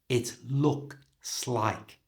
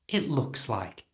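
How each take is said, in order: First: The phrase is said slowly and carefully. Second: The phrase is said quickly with sounds linked. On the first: "So slowly it sounds like this" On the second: "And at normal speed"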